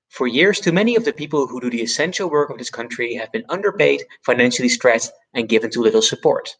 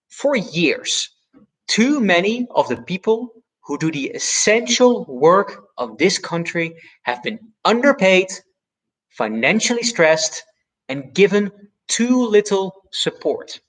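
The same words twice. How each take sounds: First: Said in the usual way. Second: Key words punched, slow and measured; Obama-style stress. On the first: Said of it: "I think the first sentence ... was far more persuasive". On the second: Shown as a demonstration. Coach demonstrating Obama's stressed delivery, slow and emphatic. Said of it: "now hear it again, spoken differently".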